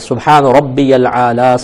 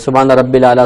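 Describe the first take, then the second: First: The middle word is said as 'rabbiyal', linking the y. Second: The middle word is said as 'rabbil', without the y. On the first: The speaker calls it right. "ये को लाम से मिलाना" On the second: The speaker calls it wrong. "लोग हमारे गलती करते हैं कि सुबहाना रब्बिल आला कह देते हैं"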